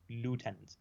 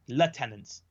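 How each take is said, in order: First: It is said in an American accent. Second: It is said in a British accent.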